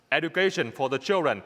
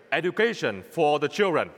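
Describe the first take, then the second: No difference in how they are said.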